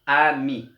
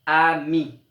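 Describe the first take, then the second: First: Ami with a loud final mi; stress on the rhyme again. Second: Ami with a loud, higher final mi; stress on the rhyme. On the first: Teacher repeating ami so pupils hear the mi. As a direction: repeat ami, hitting the last syllable. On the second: Teacher showing that ami rhymes with mi, final syllable loud. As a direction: lean on the end of ami. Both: Shown as a demonstration. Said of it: "Ça rime".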